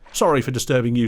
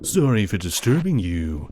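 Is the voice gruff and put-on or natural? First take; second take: natural; gruff. First: It is spoken in an ordinary, natural voice. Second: It is spoken in a gruff, deep character voice.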